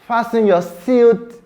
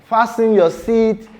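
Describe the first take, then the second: The two takes are said the same way.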